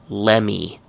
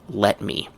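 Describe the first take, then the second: First: The t sound disappears and the words merge. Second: Both words are said clearly with the t. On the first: "Another one is" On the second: "The full pronunciation is"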